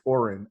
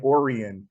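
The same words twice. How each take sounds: First: "Orin" said as two syllables; the correct "Orin", short second syllable; corrected name pronunciation. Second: "Orion" said with an extra middle syllable; the wrong "Orion", with an added i sound; mispronounced name. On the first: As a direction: say "Orin" with no i-sound in the middle. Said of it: "and it's Orin". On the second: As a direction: say "Orion" as three syllables, imitating the mistake. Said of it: "kinda like you keep saying Orion". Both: Shown as a demonstration.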